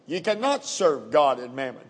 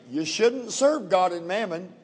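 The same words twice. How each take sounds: First: Firm weight on "cannot"; very emphatic. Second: Said in the usual way. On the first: Shown as a demonstration. Preacher quoting Jesus to the congregation, very emphatic. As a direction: lay down "cannot" as an absolute. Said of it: "He said very emphatically". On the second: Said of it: "he did not say".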